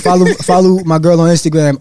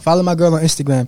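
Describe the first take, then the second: First: The phrase is said at a slower pace. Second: The phrase is said at a quick pace.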